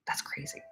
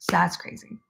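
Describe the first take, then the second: First: Hushed whisper to herself. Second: Said in the usual way. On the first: Real, not acted. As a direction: breathe it out under the breath. Repeats the phrase, first whispered.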